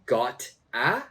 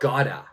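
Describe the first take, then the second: First: The two words are said separately. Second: The two words are joined into one.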